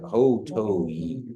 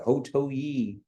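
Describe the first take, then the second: First: The pitch goes down across the word. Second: The pitch stays up without falling. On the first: The speaker calls it right. "kind of on the way down" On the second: The speaker calls it wrong. "You don't say like ho to ye"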